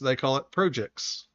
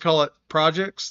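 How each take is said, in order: First: It is said with a Canadian pronunciation. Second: It is said with an American pronunciation. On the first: "they call it" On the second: "And we"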